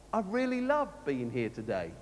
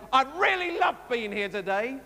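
First: Low, softer and dull, meaning the opposite; flat sarcastic. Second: Rising, eager and warmly meant; gushing sincere. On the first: Vicar showing the same words mean different things, deadpan. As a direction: say it so nobody believes you. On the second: Vicar showing the same words mean different things, eager. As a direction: sound like you truly love being here. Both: Shown as a demonstration. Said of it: "the same words to mean a completely different thing".

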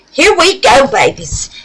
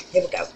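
First: "Here we go" high and loud, leaning on here; upbeat call. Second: Said in the usual way. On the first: Real, not acted. Announcing start to viewers.

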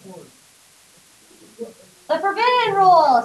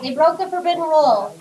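First: Slow, ominous "forbidden rule"; drawn-out spooky emphasis; dramatic slow. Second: Said in the usual way. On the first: Acted.

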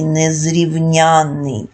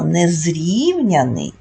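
First: Незрівняний as незрівнЯнний, long stressed НЯН; незрівняний, stress on the third syllable, drawn out; stress on suffix. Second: Незрівняний with long stressed РІВ; незрівняний, stress on the second syllable, drawn out; stress on root. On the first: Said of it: "наголос падає". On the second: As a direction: slowly say незрівняний, leaning on the І of -рів-. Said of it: "звертати увагу на наголос". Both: Shown as a demonstration.

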